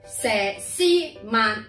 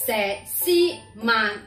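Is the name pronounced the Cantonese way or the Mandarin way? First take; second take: Cantonese; Cantonese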